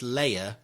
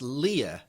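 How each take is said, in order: First: The first syllable sounds like 'lay'. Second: The first syllable sounds like 'lee'. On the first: "Rob says that it's Leia, as in layer cake" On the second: "say it's Leia, as in King Lear"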